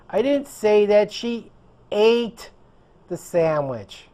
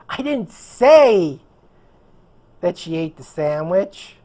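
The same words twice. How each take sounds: First: The word "ate" carries the stress. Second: The word "say" carries the stress. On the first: She did something else with it. "She did something else with the sandwich" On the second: It was implied, not said. "I implied it"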